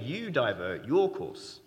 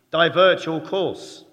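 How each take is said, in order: First: Said in the usual way. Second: Loud, slow barked command; hammed-up American accent ordering the ship to divert; American captain's order. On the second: US captain orders the other ship to turn, loud slow American accent. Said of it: "The American says".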